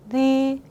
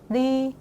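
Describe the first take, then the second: No difference in how they are said.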